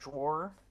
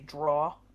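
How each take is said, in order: First: The word is said with two syllables, draw-er. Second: The word is said as one syllable, draw. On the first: This is how the speaker says it. "instead of drawer" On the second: This is how people from Jersey say it. "they would say draw"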